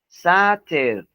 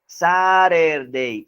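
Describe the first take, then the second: First: The middle t is a clear t sound. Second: The middle t is a quick r-like flap. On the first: This is how it is said in Britain. "en Inglaterra es diferente... se pronuncia Saturday. Escuchen" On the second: This is how most Americans say it. "Esa T la pronuncian R"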